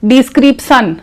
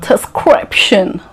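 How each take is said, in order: First: It is said with a regional mother-tongue pronunciation. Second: It is said with an exaggerated, put-on foreign accent. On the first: "if you say description, it is wrong" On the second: "You don't have to say description. Again, it looks fake"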